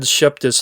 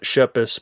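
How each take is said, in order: First: The name has a t sound in the middle. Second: The name has no t sound in the middle. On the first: The speaker calls it wrong. "I said Sheptis last time" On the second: The speaker calls it right. "I meant Shepis"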